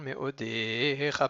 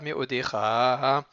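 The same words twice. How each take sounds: First: The stress is on the second-to-last syllable. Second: The stress is on the last syllable. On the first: The speaker calls it right. "il est miléael, c'est-à-dire qu'il est paroxyton" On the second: The speaker calls it wrong.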